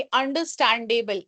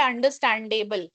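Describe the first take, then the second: First: अंडरस्टैंडेबल said carefully, every syllable clear; correct pronunciation. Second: Said in the usual way. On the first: Shown as a demonstration. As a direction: model reading of अंडरस्टैंडेबल. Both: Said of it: "इसको सही से पढ़ना है".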